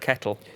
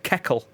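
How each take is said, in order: First: The middle consonant is a t sound. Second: The middle consonant is a k sound. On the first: The speaker calls it right. "instead of a kettle" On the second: The speaker calls it wrong. "A keckle instead of a kettle"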